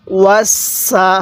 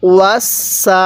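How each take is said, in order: First: Wasa drawn out very slowly with a held স; slow demonstration. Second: Said in the usual way. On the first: Shown as a demonstration. Teacher showing students the joined word, very slow. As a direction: stretch Wasa slowly for the learner. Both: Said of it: "সিন জবর সা".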